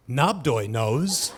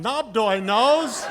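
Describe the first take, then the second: First: Low, slow, drawn-out pronouncement; misprinted quote. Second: High, drawn-out mock yell; mock scream. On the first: Retold or imitated. Freshman misquoted in the campus paper, low and portentous. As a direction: read the misprint slowly, low, rising at the end. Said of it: "so it looked like I said". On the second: Student yelling the hall's running joke from the back, drawn-out mock scream. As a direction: call it out long and high, falling away. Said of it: "somebody in the back would scream out".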